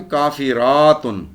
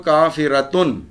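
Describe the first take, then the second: First: کافراتن with "raa" drawn out before "tun"; slow, loud "kaafiraaatun" for کافراتن; long plural ending. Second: کافرتن as "kaafiratun", short "ra"; firm "tun" straight after a short a in کافرتن; teacher's کافرتن, syllables clearly parted; singular word form. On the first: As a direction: stretch the aa hard in کافراتن. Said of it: "آتن". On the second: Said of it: "ایک کافر عورت کیا ہوگی؟". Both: Shown as a demonstration.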